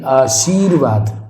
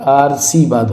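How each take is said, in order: First: The r sound comes after the sh sound. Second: The r sound comes before the s sound. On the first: The speaker calls it right. "ये बिल्कुल correct है" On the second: The speaker calls it wrong. "ये बिल्कुल गलत हो गया"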